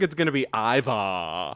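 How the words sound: It is said in an exaggerated put-on voice. "She de- does her Ivar's not in the room Ivar voice"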